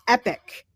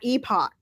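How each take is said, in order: First: The word is said like 'epic', rhyming with 'pick'. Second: The word is said like 'ee-pock', ending in 'pock'. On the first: The speaker calls it right. "It's epic" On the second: The speaker calls it wrong. "not epoch"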